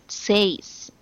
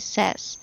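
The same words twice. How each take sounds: First: It sounds like 'say' with an s added. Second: It does not sound like 'say' plus s. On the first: The speaker calls it wrong. "It's not says. Okay, just adding s" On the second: The speaker calls it right. "It should be says"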